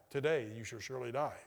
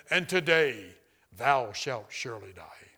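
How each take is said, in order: First: Said in the usual way. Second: Loud opening sinking into a low, slow pronouncement; deep, solemn voice. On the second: Retold or imitated. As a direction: intone it like a divine sentence, dropping low. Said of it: "it said in a very deep voice".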